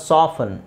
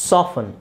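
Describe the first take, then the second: Both takes have the same delivery.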